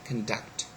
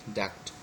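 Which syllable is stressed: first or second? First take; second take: second; second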